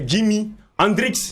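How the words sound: The name is pronounced the French way. "nous en français, on a dit c'est"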